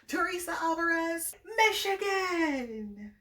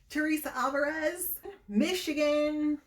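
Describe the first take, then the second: First: It is said with lively, full energy. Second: It is said flatly, with little energy. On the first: The speaker calls it right. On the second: The speaker calls it wrong.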